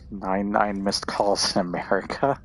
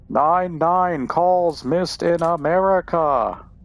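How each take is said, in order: First: It is said in his normal voice. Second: It is said in a weird put-on voice.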